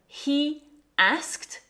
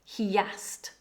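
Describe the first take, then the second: First: No linking sound joins the two words. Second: A y sound links the two words.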